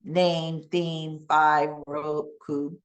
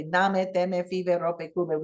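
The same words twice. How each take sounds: First: "Name, theme, five, rope, cube" in English, final E silent; long vowel and no final E in "Name, theme, five, rope, cube"; one syllable each for "Name, theme, five, rope, cube". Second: "Name, teme, five, rope, cube" with every final E sounded; two syllables each in "Name, teme, five, rope, cube", Spanish vowels; Spanish-style reading. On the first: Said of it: "silent E". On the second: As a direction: read "Name, teme, five, rope, cube" as Spanish: nah-meh, teh-meh, fee-veh, ro-peh, koo-beh. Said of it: "if you're a Spanish speaker". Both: Shown as a demonstration.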